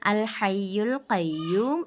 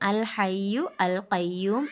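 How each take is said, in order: First: The article is joined onto the previous word. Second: The article is said as a separate word. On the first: The speaker calls it right. "എന്നാണ് വായിക്കേണ്ടത്" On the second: The speaker calls it wrong. "എന്നല്ല വായിക്കേണ്ടത്"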